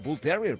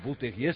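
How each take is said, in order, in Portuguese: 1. O nome é dito sem pronúncia à francesa. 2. O nome é dito com pronúncia à francesa.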